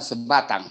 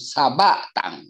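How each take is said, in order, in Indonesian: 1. Vokal pertama adalah 'e' lemah. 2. Vokal pertama adalah 'a' penuh.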